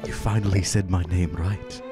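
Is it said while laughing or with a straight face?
laughing. It is said while laughing.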